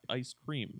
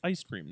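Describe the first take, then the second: First: It is said as two separate words. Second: It is run together as one word. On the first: The speaker calls it wrong. "you pronounce it as like two separate words" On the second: The speaker calls it right. "it's ice cream"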